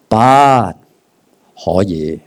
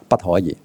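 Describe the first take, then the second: First: There is a pause after the first syllable. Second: The three syllables run together without a pause. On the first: No, it is in fact allowed. "魔鬼说不可以，不是说不可以No you can't，No you can" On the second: It is not allowed. "你觉得不可以"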